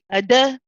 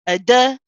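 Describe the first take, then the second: No difference in how they are said.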